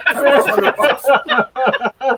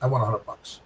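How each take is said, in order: First: Slow, high, loud laughing repeat; laughing emphasis. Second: Said in the usual way. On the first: Real, not acted. Bowler to host, mocking the tiny prize, slow laughing. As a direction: draw it out through a laugh.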